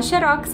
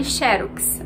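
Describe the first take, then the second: First: "xerox" with ROX as the strong syllable; stress on last syllable. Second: "xerox" with XE as the strong syllable; stress on first syllable. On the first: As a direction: push the stress to the end of "xerox". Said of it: "aí não tem acento". ("xerox" tônica no ROX) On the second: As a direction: start "xerox" on its stressed beat, XE-rox. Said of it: "se atentar ao acento caso". ("xerox" tônica no XE) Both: Shown as a demonstration.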